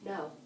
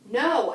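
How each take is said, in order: First: It is said firmly and calmly. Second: It is said forcefully and angrily.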